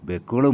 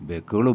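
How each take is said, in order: Both takes have the same delivery.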